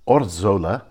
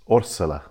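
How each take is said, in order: First: The middle consonant is a buzzing 'z' sound. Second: The middle consonant is a hissing 's' sound. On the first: The speaker calls it wrong. "So it's not Orzola" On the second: The speaker calls it right. "the Spanish pronounce Zs as S's"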